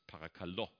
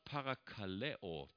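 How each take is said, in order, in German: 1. Es endet auf ein einfaches 'o', vier Silben. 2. Es hat eine volle 'eo'-Endung, fünf Silben. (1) "mittlerweile im Griechischen wird es parakalo ausgesprochen" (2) "Das gleiche Wort parakaleo"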